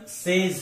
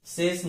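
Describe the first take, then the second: First: सेज as "sez"; short vowel and z ending in सेज; correct pronunciation. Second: सेज as "ses" with an s ending; hissed final s in सेज; wrong pronunciation. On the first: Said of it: "इसका सही उच्चारण". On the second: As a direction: mistaken reading of says, सेज. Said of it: "नहीं है". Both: Shown as a demonstration.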